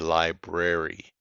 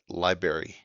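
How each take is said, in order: First: Both R sounds are clearly pronounced. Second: The first R is dropped, ending like 'berry'. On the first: The speaker calls it right. "There's two R's" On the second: The speaker calls it wrong. "often pronounced as library"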